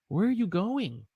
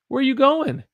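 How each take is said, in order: First: Going ends with a full g sound. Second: Going ends in 'in' with no g. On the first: "instead of saying going" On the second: "if I want to sound more natural"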